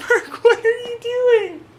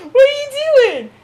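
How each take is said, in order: First: High, laughing coo at the pet; squeaky laughing pet voice. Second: Very high, louder squeal at the pet; high-pitched pet scolding; squealed at cat. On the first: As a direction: tease the cat in a much higher voice. Talking to her cat. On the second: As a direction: call out to the cat in a much higher, louder voice. Talking to her cat again. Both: Real, not acted.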